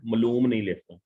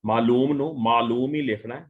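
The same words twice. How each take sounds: First: ਮਲੂਮ with a short first a; teacher showing the wrong spelling; wrong form. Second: ਮਾਲੂਮ with a long first a; teacher giving the right spelling; correct form. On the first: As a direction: clip the first vowel of ਮਲੂਮ. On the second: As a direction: stretch the first vowel of ਮਾਲੂਮ. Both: Shown as a demonstration.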